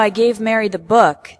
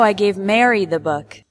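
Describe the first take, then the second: First: The word "book" carries the strongest stress. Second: The word "Mary" carries the strongest stress. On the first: It was the book, not another item. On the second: Mary, not another person, received it.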